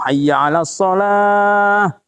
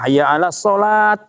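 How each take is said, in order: First: The last word ends softly in an h sound. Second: The last word ends sharply in a t sound. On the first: The speaker calls it right. "kalau diwakofkan sholah" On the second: The speaker calls it wrong. "Gak bisa kita baca"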